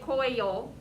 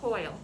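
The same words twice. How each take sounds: First: The word is stretched into two syllables. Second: The word is said as one syllable. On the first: The speaker calls it wrong. "You wouldn't say coil, We add extra syllables" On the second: The speaker calls it right. "you would say coil"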